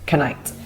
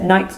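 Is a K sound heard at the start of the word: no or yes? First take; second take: yes; no. First: A K sound is heard before the N. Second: The word starts with N, no K sound. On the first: The speaker calls it wrong. "not knight" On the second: The speaker calls it right. "We will also pronounce it night"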